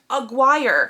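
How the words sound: The name is said with an American pronunciation. "I know this is because I'm American"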